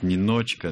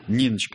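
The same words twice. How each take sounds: First: The name is said with an English-sounding accent. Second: The name is said with Russian vowel reduction. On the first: "все говорят «Ниночка»" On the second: "абсолютно русская редукция"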